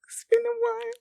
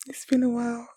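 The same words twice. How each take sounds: First: Much higher whispered repeat; mock high echo. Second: Said in the usual way. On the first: Viewer echoing a character's line in a high whisper.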